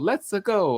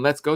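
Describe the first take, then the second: First: It is said in a Mario impression voice. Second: It is said in his normal voice.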